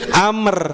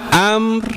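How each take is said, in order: First: The lips open first, then the r follows. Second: The lips open at the same moment as the r. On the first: "kalau kita lepas dulu baru ro dikeluarin" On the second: "Kalau ini bersamaan"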